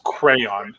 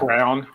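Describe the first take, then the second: First: The word is said with two clear syllables. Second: The word is squeezed into one syllable, like crown. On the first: The speaker calls it right. "It's either the right way or the wrong way" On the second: The speaker calls it wrong. "crown almost"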